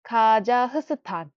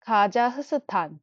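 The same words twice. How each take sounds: The two takes are said the same way.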